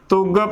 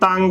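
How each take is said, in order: First: A short 'u' vowel with no nasal sound. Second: An 'a' vowel with a nasal sound. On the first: "ਬਿਨਾਂ ਟਿੱਪੀ ਤੋਂ ਕੱਲੇ ਔਂਕੜ ਦੇ ਨਾਲ ਹੀ ਉਚਾਰਨ ਕਰਦੇ ਹਾਂ ਤੁੱਗ" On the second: "ਕੱਲਾ ਟਿੱਪੀ ਦੇ ਨਾਲ ਉਚਾਰਨ ਕਰਾਂਗੇ ਤਾਂ ਵੀ ਗਲਤ ਤੰਗ ਬਣੇਗਾ"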